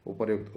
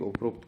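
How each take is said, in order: First: उपर्युक्त with a yu sound after र; correct pronunciation. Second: उपरोक्त with an o sound after र; wrong pronunciation. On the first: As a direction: say उपर्युक्त with a clear युक्त. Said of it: "उपरोक्त कोई word ही नहीं". (उपर्युक्त में 'यु' की ध्वनि) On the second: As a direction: say उपरोक्त, running र into ओ. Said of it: "कोई वर्ड ही नहीं है". (उपरोक्त में 'रो' की ध्वनि) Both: Shown as a demonstration.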